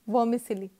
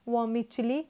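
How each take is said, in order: First: The 'c' is said as an 's' sound. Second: The 'c' is said as a 'ch' sound. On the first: The speaker calls it wrong. "ना कि वर्मिसिली" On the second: The speaker calls it right. "It reads as वर्मिचिली"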